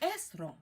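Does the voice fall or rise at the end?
fall. The pitch falls at the end. It states that this is the person. "to make a statement, the inflection goes down"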